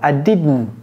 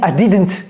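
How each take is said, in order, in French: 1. Le t est prononcé dans la gorge. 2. Le t n'est pas prononcé dans la gorge. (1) "C'est dans la gorge" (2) "Si vous dites I didn't, il ne peut pas vous comprendre"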